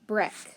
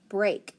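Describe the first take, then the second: First: The vowel is a short E sound. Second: The vowel is a long A sound. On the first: The speaker calls it wrong. "short E, sneaky A" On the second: The speaker calls it right. "How about long A"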